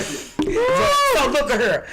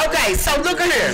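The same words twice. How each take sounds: First: Slow, stretched Texas drawl, higher. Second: Texas drawl. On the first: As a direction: drag out the words in a Texas drawl. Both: Shown as a demonstration. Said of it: "I've been in Texas too long".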